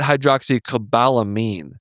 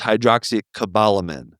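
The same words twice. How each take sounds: First: The last syllable sounds like 'meen'. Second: The last syllable sounds like 'min'. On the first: The speaker calls it wrong. "not a mean" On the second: The speaker calls it right. "a min"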